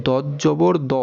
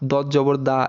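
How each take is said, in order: First: দ as a full-mouthed "daw"; দ with a back, rounded vowel; heavy rounded vowel. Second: দা with an open aa vowel; দা as "daa", not rounded "daw"; mistaken aa vowel. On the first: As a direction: round the final দ, no aa. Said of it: "সঠিক উচ্চারণটা কি দেখেন". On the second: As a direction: end দদ জবর on an open দা. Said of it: "কিন্তু সেটা আসলে ভুল". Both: Shown as a demonstration.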